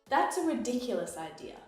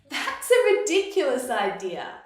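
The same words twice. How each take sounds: First: The tone sounds negative and disapproving. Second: The tone sounds light and amused. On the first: The idea is silly or stupid. "it can be a negative thing. It can mean silly or stupid" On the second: The idea is crazy and funny. "it can also mean that something is crazy and it should be laughed at"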